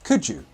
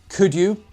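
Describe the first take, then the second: First: The D and Y join into a j sound. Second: The D and Y are said separately.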